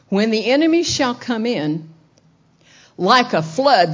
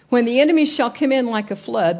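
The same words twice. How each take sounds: First: A pause comes between 'come in' and 'like'. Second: No pause comes between 'come in' and 'like'. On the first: The Spirit's response comes like a flood. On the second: The enemy arrives like a flood.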